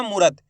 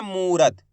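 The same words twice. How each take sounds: First: "मूरत" quickly as "murat", short "u"; wrong short vowel. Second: "मूरत" as "moorat", with a held "oo"; drawn-out long vowel. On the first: Teacher showing learners the mistake, short vowel. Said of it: "ऐसे नहीं पढ़ना". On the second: Teacher correcting the misreading for learners, long vowel drawn out. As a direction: stretch the first vowel of "मूरत". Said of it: "खींच के पढ़ेंगे". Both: Shown as a demonstration.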